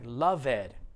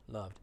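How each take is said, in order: First: The word is said with two syllables. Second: The word is said with one syllable. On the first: The speaker calls it wrong. "it looks like loved. It's not loved. That's two syllables" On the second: The speaker calls it right. "It's just one"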